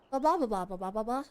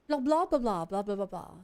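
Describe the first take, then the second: First: It is said in the speaker's usual accent. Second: It is said in a put-on British accent.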